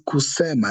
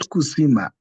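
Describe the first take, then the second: First: The second vowel sounds like 'e'. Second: The second vowel sounds like 'i'. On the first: The speaker calls it right. "the word is kusema" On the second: The speaker calls it wrong. "not kusima"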